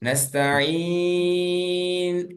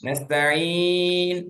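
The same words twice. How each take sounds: First: The long vowel is held for a long time. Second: The long vowel is held for a medium time. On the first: "ஆறு ஹரக்கா" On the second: "நான்கு ஹரக்கா"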